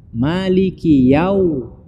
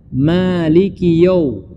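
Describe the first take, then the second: First: "Maliki Yau" with open ya gliding into w; full "a-u" diphthong in "Yau"; correct yau. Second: "Maliki Yau" ending in a rounded "yo"; wrong yau as yo. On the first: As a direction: slowly say "Maliki Yau" as ya plus u. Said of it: "bacanya menjadi waw". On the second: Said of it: "Yau dibaca, bukan ya". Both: Shown as a demonstration.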